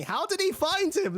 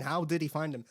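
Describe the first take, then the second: First: High, loud, baffled outburst; exasperated question. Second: Said in the usual way. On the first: Real, not acted. Reviewer baffled by a plot hole, loud and incredulous. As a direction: throw the question up in disbelief. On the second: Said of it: "And I'm thinking".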